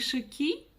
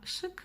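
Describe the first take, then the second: First: The vowel is pronounced fully and distinctly. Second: The vowel is very short and half-soft. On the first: The speaker calls it wrong. "Не шики" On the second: The speaker calls it right. "а шик, да? ... Вот та самая средняя мягкость"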